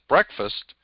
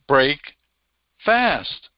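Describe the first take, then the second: First: It is said as one joined word. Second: It is said as two separate words. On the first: "you pronounce it breakfast" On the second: "it's made up of two words"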